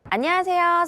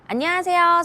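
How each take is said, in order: First: The voice has a plain, balanced tone. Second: The voice has boosted high tones, sounding crisp. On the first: "일반 톤" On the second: "밝은 톤"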